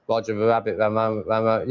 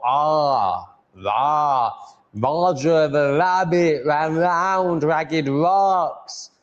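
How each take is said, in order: First: Roger the rabbit ran round said low and mumbled, mouth barely open; lazy R in Roger the rabbit, mouth nearly shut. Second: Roger the rabbit ran round ragged rocks said very slowly, mouth open, full R sounds; mouth wide open. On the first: Showing viewers his lazy mumbled R. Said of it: "opening my mouth this much rather than this". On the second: Practising his R sounds for viewers, slow and wide-mouthed. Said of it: "My mouth needs to open more". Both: Shown as a demonstration.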